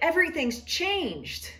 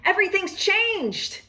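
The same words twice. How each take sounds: First: It is said gloomily, with a frown. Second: It is said cheerfully, with a smile.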